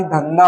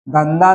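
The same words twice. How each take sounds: First: Said in the usual way. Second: धंधा ending in plain "da"; no aspiration on the last syllable of धंधा; da for dha. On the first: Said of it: "धा आएगा". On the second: Shown as a demonstration. Teacher showing a wrong spelling, plain "da" in धंधा. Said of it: "दा नहीं आएगा".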